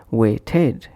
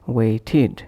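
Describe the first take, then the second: First: "weighted" ending in ed, way-ted; spelt-out ed. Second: "weighted" said as way-tid; id ending. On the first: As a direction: say "weighted" to rhyme its end with bed. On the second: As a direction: end "weighted" with a short id. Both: Shown as a demonstration. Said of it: "is pronounced as".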